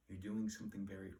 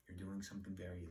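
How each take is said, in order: Both takes have the same delivery.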